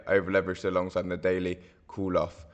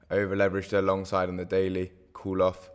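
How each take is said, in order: Both takes have the same delivery.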